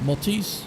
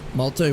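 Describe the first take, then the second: First: The final S sound is pronounced. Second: The final S sound is silent. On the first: "Am I saying that right?" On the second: "with the S being silent"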